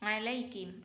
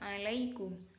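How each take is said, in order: First: The last syllable has an 'i' vowel. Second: The last syllable has an 'u' vowel.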